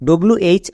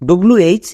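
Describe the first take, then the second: The two takes are said the same way.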